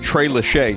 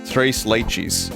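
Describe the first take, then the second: First: The word 'leches' ends with an 'ee' sound. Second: The word 'leches' ends with an 'ess' sound.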